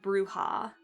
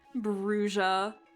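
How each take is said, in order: First: The word does not sound like bruise. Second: The word sounds almost like bruise. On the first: This is the official pronunciation. "officially pronounced Bruja" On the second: This is how one game pronounced it. "Almost sounds like bruise"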